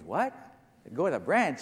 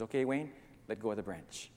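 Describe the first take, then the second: First: Incredulous question. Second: Low, soft, unruffled voice of God; gentle low command; calm instruction. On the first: Man disbelieves God's instruction. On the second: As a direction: tell him quietly and calmly, pitched down. God calmly instructs hanging man. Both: Acted.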